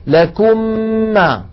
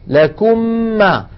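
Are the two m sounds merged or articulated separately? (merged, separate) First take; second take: merged; merged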